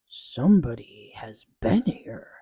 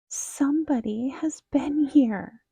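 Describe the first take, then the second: First: It is said in a deep, loud growl. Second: It is said in a high, squeaky voice.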